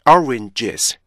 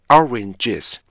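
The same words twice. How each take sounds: The two takes are said the same way.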